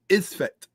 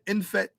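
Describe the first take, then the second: First: The word begins with an 'is' sound. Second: The word begins with an 'in' sound. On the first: The speaker calls it right. "Let me get the proper pronunciation" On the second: The speaker calls it wrong. "not inf-"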